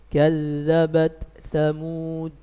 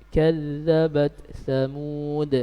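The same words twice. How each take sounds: Both takes have the same delivery.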